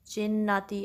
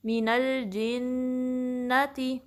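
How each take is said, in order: First: जिन्नाती with jeem slipping toward cha; wrong cha sound. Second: Slow, drawn-out मीनल जिन्नती with clear jeem; slow recitation demo. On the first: Teacher to students, showing the mistake to avoid. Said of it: "ऐसा नहीं". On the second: Teacher to students, demonstrating correct jeem. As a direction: recite मीनल जिन्नती slowly, ghunna held. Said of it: "जिम में ख्याल रहे". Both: Shown as a demonstration.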